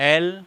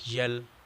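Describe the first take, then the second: First: It begins directly with the vowel, no y sound. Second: It begins with a y sound before the vowel. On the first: The speaker calls it right. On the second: The speaker calls it wrong.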